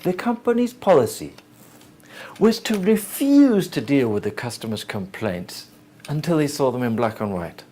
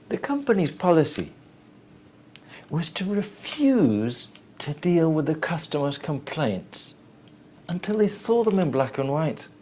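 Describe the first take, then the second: First: It is said in a disapproving, negative way. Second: It is said in a plain, neutral way.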